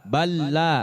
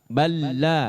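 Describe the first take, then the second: Both takes have the same delivery.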